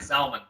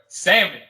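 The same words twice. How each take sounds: First: The word is said with the L sounded. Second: The word is said with the L silent. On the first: "I never heard it called salmon" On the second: "but salmon"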